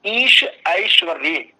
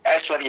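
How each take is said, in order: First: ऐश्वर्य slow and loud with "ai" glide; pure ऐश्वर्य. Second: ऐश्वर्य said "eshwarya" with flat e; common ऐश्वर्य. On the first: Shown as a demonstration. Teacher spelling out the correct ऐश्वर्य, slowly. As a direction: stress ईश, then ऐश्वर्य with a gliding ai. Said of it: "जब एक शब्द बोलते हैं ऐश्वर्य". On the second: Retold or imitated. Teacher imitating how students say ऐश्वर्य. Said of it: "आप लोग क्या बोलते हैं".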